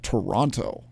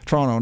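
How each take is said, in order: First: The word is said with all three syllables. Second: The word is shortened to two syllables. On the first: This is how outsiders say it. The speaker calls it wrong. "not Toronto" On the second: This is how locals say it. The speaker calls it right. "they say Toronto, like we only use two syllables"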